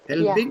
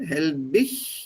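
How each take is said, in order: First: The name is said with a Swiss pronunciation. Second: The name is said with a German pronunciation. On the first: "is the Swiss pronunciation" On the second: "is the German pronunciation"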